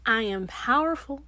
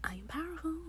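First: Said in the usual way. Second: Whispered affirmation, breath only; hushed whisper of the same words. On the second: Acted. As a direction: whisper it like a secret to yourself. Whispered repeat.

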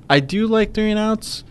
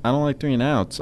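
First: "do" lifted high and stressed. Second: Said in the usual way. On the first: Real, not acted. Conceding a point to co-host, stress on "do". Corrects don't to emphatic do.

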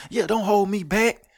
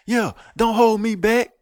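First: High whiny 'hold me back' bluff; mock tough guy. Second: High, loud and slow fake bluster; mock tough guy, louder. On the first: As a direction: squeal it like a fake tough guy begging to be held back. Mocking a fake tough guy. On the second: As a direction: drag it out louder, hamming up the bravado.

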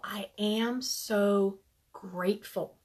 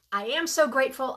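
First: Slowed right down and hushed, like a mantra; slow soft mantra. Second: Said in the usual way. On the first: Shown as a demonstration. Leading the group in a hushed gratitude mantra. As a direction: let it sink in, softly and slowly. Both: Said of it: "we like to say it three times".

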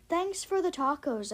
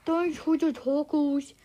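First: Said in the usual way. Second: Slow, louder, garbled words round food; mouth full. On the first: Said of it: "Hold on". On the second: A narrator's reading. Kid thanks mom while eating, slow mouth-full garble. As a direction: mumble it thickly as if chewing tacos. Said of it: "I say with my mouth full".

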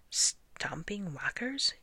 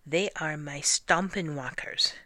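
First: Slow, higher, rising question; puzzled echo. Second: Said in the usual way. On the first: A narrator's reading. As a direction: draw it out as a baffled question. Servant echoes the silly name doubtfully.

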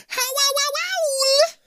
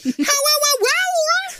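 First: Slow, very high screechy howl; wolf howl. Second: Slow, very high, louder screech howl; wolf howl. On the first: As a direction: howl like a bad werewolf. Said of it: "a bone-chilling". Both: A narrator's reading.

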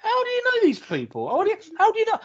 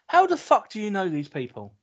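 First: Much higher, squeaky mock disbelief; mock squeak. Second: Said in the usual way. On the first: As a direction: squeal the question in mock amazement. Mocking own disbelief. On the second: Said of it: "And I'm like".

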